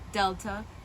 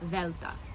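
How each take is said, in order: First: It begins with a d sound. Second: It begins with a th sound. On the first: This is the reconstructed older pronunciation. "this is a D sound, duh. That's what I say" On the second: This is the later and modern Greek pronunciation. "in Lucian and modern Greek, it starts to sound like the the in the"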